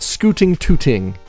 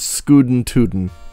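First: The middle consonants sound like crisp T sounds. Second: The middle consonants sound like soft D sounds. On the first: The speaker calls it wrong. "It's not scooting tooting" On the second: The speaker calls it right. "It is scootin' tootin'. With D's, not T's"

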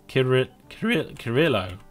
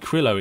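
First: A vowel sits between the K and R. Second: The K runs straight into the R. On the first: The speaker calls it right. "it's got an I before the R" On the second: The speaker calls it wrong. "It's not actually Krillo"

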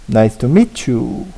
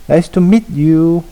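First: The t and y blend into a ch sound. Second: The t and y are said separately.

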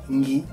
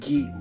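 First: The g is said through the nose. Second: The g is a plain, non-nasal stop. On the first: The speaker calls it right. "bensì gi, un po' più nel naso" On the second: The speaker calls it wrong. "che non suona gi"

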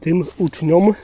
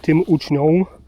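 First: The ending is pronounced as a clear -om. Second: The ending is pronounced as a nasal -ą. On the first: The speaker calls it right. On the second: The speaker calls it wrong.

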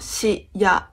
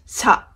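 First: It is said as two separate syllables. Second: It is said as one single syllable. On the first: The speaker calls it wrong. "not shi ya" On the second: The speaker calls it right. "The contracted sound represents a single syllable"

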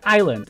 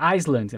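First: The S in the middle is silent. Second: The S in the middle is pronounced. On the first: The speaker calls it right. "Só que o S tu não pronuncia, então fica Island" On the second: The speaker calls it wrong. "eu sempre achava antes de aprender inglês que era Island"

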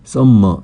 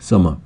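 First: The m sound is held double. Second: The m sound is said once. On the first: The speaker calls it wrong. "m이 두 개가 있다고 해서 summer 이렇게 하면 안 되고요" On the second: The speaker calls it right. "한 번만 소리가 납니다"

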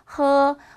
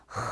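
First: The h is soft with little friction. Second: The h is strongly rasped at the back. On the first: "처음에는 그냥 느낌만, 흉내만" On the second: "완전한 이런 타금이 나오는데"

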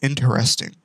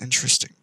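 First: Every syllable is pronounced as it is spelled. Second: A middle syllable is dropped, making it shorter. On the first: This is how the word is written. "It's spelled interesting" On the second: This is how people usually say it. "But everyone says interesting"

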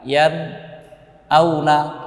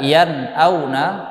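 First: A short break follows the nun sound. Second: The nun flows straight into the next sound. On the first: The speaker calls it wrong. "atau berhenti sejenak" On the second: The speaker calls it right. "setelah sempurna mengucapkan huruf nun, huruf sukunnya yan, maka langsung berpindah"

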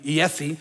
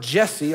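First: The name begins with a Y sound. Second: The name begins with a J sound.

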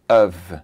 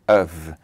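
First: The word is said like 'of'. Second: The same.

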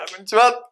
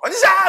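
First: The greeting is fresh and moderately loud. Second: The greeting is shouted too loudly.

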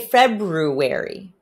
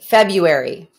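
First: The 'r' after 'Feb' is pronounced. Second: The 'r' after 'Feb' is dropped. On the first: The speaker calls it right. "Do say February" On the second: The speaker calls it wrong. "Don't say February"

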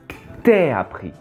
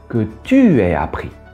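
First: The vowel of 'tu' is dropped, giving 't'aies'. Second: 'Tu' is said in full with its vowel. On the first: The speaker calls it right. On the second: The speaker calls it wrong.

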